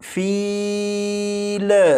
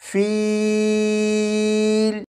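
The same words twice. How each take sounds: First: The final L ends with a bouncing echo. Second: The voice stops cleanly at the final L. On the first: The speaker calls it wrong. "इस लाम को इस तरह से ना पढ़िएगा" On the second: The speaker calls it right. "जब आप लाम पर पहुँचे तो आवाज़ ख़त्म कर दीजिएगा"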